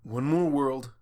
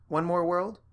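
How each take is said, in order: First: Tired falling confirmation; weary answer. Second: Tired rising question; weary question. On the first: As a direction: resign to it flatly. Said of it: "Spike said". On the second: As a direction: ask it with a shrug. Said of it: "she asked". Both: Acted.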